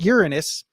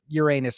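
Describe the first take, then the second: First: The name begins like the word 'urine'. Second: The name sounds like 'your anus'. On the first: It invites a joke about urine. "that's just like saying urine" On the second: It invites a crude bottom joke. "Everybody makes the butt jokes"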